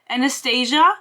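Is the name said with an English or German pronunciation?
English. The name is said with an English pronunciation. "like the Fifty Shades of Grey bitch"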